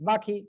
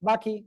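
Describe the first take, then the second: The two takes are said the same way.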